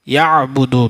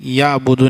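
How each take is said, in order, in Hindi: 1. 'a' एक संकुचित मध्य-गले के व्यंजन से शुरू होता है। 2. 'a' सादे तरीके से शुरू होता है, इसमें कोई गले का व्यंजन नहीं है। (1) "बीच हलक से आइन अदा होता है" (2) "या अबुदू नहीं बोलेंगे"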